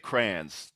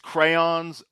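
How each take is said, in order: First: The first syllable sounds like 'cran'. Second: The first syllable sounds like 'cray'. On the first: This is how most people say it. "most people say crayons, just like cranberry" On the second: This is how the word is properly said. "it is crayons"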